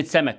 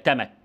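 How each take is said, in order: First: Said in the usual way. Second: تمك with a t replacing the opening s; child's تمك for the word, t-initial; child's substitution error. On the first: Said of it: "زي كلمة سمك". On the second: Shown as a demonstration. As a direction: say تمك, stopping the first sound into t. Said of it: "يقول لك تمك".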